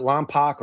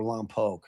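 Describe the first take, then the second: First: Lompoc ending in "pock"; first pronunciation option. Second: Lompoc ending in "poke"; second pronunciation option. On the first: Host checking the town's name, Lompoc said as "LOM-pock". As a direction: say Lompoc with a short "ah" in the last syllable. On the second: Host offering the other town pronunciation, Lompoc said as "LOM-poke". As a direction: say Lompoc with a long "oh" in the last syllable. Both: Shown as a demonstration. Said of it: "Is it Lompoc or Lompoc?".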